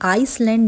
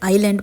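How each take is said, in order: First: An S sound is heard in the middle. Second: No S sound is heard in the middle. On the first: The speaker calls it wrong. "आइसलैंड नहीं पढ़ना है" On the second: The speaker calls it right. "इसे आइलैंड पढ़ना है। एस यहाँ पर silent है"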